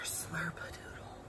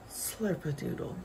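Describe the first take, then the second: First: It is said in a soft whisper. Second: It is said at a normal, medium volume.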